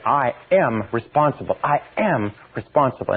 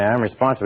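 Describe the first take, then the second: First: Firm, stressing am; mean it, press on am; with real conviction. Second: Said in the usual way. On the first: Shown as a demonstration. Teacher showing how to feel it: earnest, stressing am. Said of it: "You say". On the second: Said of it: "you don't say".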